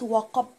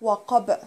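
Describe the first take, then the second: First: وقب ending flat with a dead b; no qalqala. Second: وقب with a louder echoing b; qalqala. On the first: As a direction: stop on the b with no bounce. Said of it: "وقفت كده مش هبينه". (بدون قلقلة) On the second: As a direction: bounce the final b out clearly. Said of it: "فلازم اقول وقب". (وقب بالقلقلة) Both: Shown as a demonstration.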